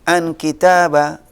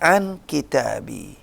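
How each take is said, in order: First: The word kitab ends with an a vowel. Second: The word kitab ends with an i vowel. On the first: The speaker calls it wrong. "Nggak bisa kita baca" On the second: The speaker calls it right. "Jadi harus dibaca"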